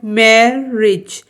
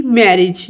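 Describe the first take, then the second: First: marriage broken in two, "मै, रिज"; teacher sounding out marriage in two beats; split into syllables. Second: Said in the usual way. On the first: Shown as a demonstration. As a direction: say marriage slowly with a break between its two syllables. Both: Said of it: "ये टू syllable word है".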